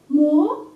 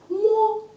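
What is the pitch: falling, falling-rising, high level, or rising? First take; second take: rising; high level. First: The pitch rises from mid to high. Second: The pitch stays high and level.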